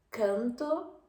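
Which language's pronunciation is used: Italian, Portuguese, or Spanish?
Spanish. The vowel is oral and moderately open. "canto español"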